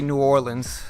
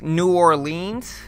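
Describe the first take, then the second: First: It is pronounced the way most people say it. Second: It is pronounced the way outsiders say it. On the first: The person is from the state. The speaker calls it right. "most people say New Orleans" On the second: The person is not from the state. The speaker calls it wrong. "people think it's New Orleans, and it's not"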